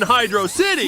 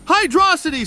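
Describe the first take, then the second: First: The name is said as two separate words. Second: The name is said as one blended word. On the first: The speaker calls it wrong. "Hydro and City" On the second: The speaker calls it right. "It's clearly one word. So it's Hydrocity"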